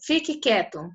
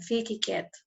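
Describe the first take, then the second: First: It is said forcefully, like an exclamation. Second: It is said calmly, without exclamation.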